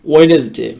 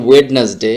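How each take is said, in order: First: ওয়েডনেসডে with silent first d, "wenes-day"; correct pronunciation. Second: ওয়েডনেসডে with the first d sounded, "wed-nes-day"; wrong pronunciation. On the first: Teacher gives the correct form, silent d. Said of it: "সঠিক উচ্চারণটা হচ্ছে". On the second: Teacher shows how we commonly say it, d sounded. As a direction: voice the d in the middle of ওয়েডনেসডে. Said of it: "সঠিক উচ্চারণটা কিন্তু এটা না". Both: Shown as a demonstration.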